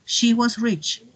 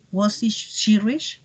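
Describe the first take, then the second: First: Said in the usual way. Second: Slow yes-no question rising on "rich"; question tune. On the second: Shown as a demonstration. Teacher shows the class a slow rising question. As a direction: ask "Was she, she rich?" slowly, lifting at the end. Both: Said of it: "la pregunta sería".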